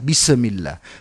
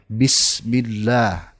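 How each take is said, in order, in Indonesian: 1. Ada pantulan pendek seperti vokal setelah s. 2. S berhenti bersih tanpa pantulan. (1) "tidak sedikit orang yang membaca bismillah" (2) "sempurnakan dulu matinya huruf sin tersebut"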